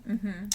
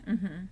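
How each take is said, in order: No difference in how they are said.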